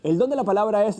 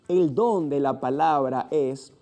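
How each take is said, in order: First: It is read very quickly. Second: It is read very slowly. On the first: "hago una lectura muy rápida" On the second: "una lectura muy lenta donde puedas pronunciar cada fonema"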